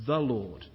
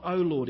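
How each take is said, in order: First: Said in the usual way. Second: A slightly louder pleading call; imploring. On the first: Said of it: "reminding himself of truths about the Lord". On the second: Retold or imitated. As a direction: lean in and beg it lightly. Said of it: "David imploring".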